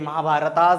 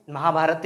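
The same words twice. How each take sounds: First: महाभारतास with an extra -as ending; wrong anglicised name. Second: महाभारत said cleanly, ending on त with no added s; correct Hindi name. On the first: Teacher demonstrating the mistaken name to students, mock -as ending. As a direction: stretch महाभारत into महाभारतास like an English plural. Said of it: "महाभारतास बोलते हैं". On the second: Teacher correcting students' pronunciation, clean Hindi ending. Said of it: "भाई साहब, हमको ... महाभारत ही बोलना". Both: Shown as a demonstration.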